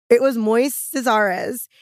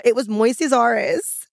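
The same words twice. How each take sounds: First: Even slower, "It was Moises Ares" drawn out; slower emphatic. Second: Slow, every word weighted; slow emphatic. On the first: Repeats name, even slower. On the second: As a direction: spell out "It was Moises Ares" slowly. Repeats name for emphasis. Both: Acted.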